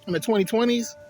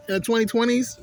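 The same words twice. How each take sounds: First: In the twenty twenties asked with a rising, disbelieving lift; incredulous. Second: More incredulous. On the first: Speaking to viewers about weed laws, disbelieving rise. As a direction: repeat it like you can't believe it. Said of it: "And not, not in the twenty twenties". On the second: Repeating the question to viewers, even more incredulous. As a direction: push the disbelief further. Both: Shown as a demonstration.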